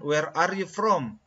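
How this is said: The words are chopped apart with small breaks. The speaker calls it wrong.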